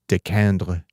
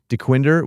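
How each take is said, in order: First: The name is said with a French pronunciation. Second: The name is said with an American English pronunciation. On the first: This is how it would be said in French. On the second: This is how locals commonly say it.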